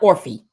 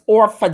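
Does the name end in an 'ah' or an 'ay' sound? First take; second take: ay; ah. First: The name ends in an 'ay' vowel. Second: The name ends in an 'ah' vowel. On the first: This is how the name is spelled. The speaker calls it wrong. "Not Orphe" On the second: This is how locals say the name. The speaker calls it right. "The way we say it around the way it's Orpha Jeans"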